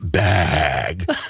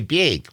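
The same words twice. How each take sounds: First: It is said with a Los Angeles accent. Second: It is said with a Wisconsin accent.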